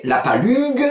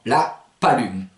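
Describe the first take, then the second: First: PALUNG ending on a hard g, pitched up; G d'appui. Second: PALUME slow, nasal ending without g; G enlevé. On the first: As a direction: sound the g closing PALUNG. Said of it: "Vous mettez ce G pour vous habituer". (« palung » avec le g final prononcé) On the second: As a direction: ease PALUME into the nose, no g. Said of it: "vous enlevez le G au dernier moment". (« palume » lent, finale nasale sans g) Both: Shown as a demonstration.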